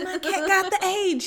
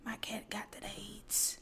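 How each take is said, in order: First: My cat got the aids, said louder and higher; loud proud imitation. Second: Whispered imitation. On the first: Cat owner telling the lobby, loud proud announcement. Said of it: "Yeah, you know". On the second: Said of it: "She loved to come in and tell everybody".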